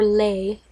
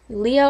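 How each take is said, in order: First: The name ends on a single 'ay' vowel. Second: The name ends with an extra 'uh' vowel. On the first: "or Lay" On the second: "I think you pronounce it Leah"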